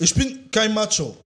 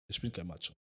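First: KEIN punched high and loud; insistent denial. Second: Drops to a mumble; trailing off. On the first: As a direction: stress on KEIN. Energischer Protest. (betont „kein“ laut und hoch) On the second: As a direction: Ich bin kein Macho, almost swallowed. Leise Wiederholung. (leise auslaufend) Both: Real, not acted.

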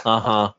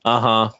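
The two takes are said the same way.

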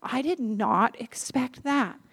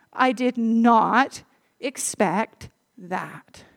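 First: Said in the usual way. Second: Slow, drawn-out amazement; amazed inner thought; stunned disbelief. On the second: Retold or imitated. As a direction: let the surprise sink in. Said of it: "And I thought".

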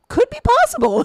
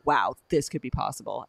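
First: High, loud mock awe at a silly idea; mock amazement. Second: Said in the usual way. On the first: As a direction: squeal it in mock wonder. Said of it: "you're like". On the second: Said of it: "as kids, we were like".

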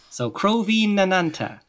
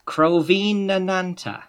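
First: Said in the usual way. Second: Crovinananta drawn out slowly, syllable by syllable; careful slow pronunciation. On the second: Shown as a demonstration. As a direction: Crovinananta read with a long n and a high start. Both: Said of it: "reading out the place name".

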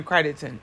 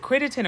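First: Crittenden said with a long i, "CRY-den-ton"; first vowel of Crittenden as in "kite"; long I pronunciation. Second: Crittenden said with a short i, "CRIT-en-den"; first vowel of Crittenden as in "kit"; short I pronunciation. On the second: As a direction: say Crittenden with first syllable like "writ". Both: Shown as a demonstration. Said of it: "or is it Crittenden or Crittenden".

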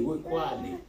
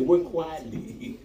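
First: Said in the usual way. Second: Very slow, each word stretched; slow emphasis. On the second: Shown as a demonstration. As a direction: drag out the words to drive them home. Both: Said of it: "Scripture said".

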